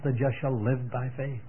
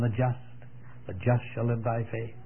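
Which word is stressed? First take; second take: live; just. First: The word live carries the stress. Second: The word just carries the stress. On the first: "put the emphasis on the life" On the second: "put the emphasis on the just"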